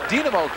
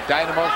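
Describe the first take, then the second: First: The name is said the Russian way. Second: The name is said the American way. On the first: This is the old Soviet-era name. "we called it at one time in the Soviet Union" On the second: This is how Americans have long said it. "for us Americans"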